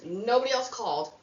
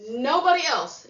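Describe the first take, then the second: First: Said in the usual way. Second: NOBODY punched higher and louder; emphatic. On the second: Real, not acted. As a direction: hit Nobody hard, falling on else.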